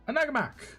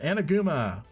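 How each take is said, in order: First: The name ends with a k sound. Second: The name ends without a k sound. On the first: The speaker calls it wrong. "If I did not say your name right" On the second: The speaker calls it right. "The K is silent"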